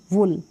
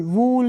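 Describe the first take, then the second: First: "वुल" with clipped short u. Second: "वूल" with stretched oo; wrong long oo. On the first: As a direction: say "वुल" with a brief vowel. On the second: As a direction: hold the vowel of "वूल" too long. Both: Shown as a demonstration. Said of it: "वूल नहीं".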